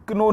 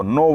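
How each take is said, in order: First: क्नो with the k sounded, k-no; know spoken wrongly as क्नो; wrong spelled-out k. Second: नो with silent k, just no; know spoken as नो. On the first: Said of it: "क्नो नहीं बोलते". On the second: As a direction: say नो without the k sound. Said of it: "नो बोलते हैं". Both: Shown as a demonstration.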